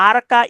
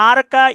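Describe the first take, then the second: No difference in how they are said.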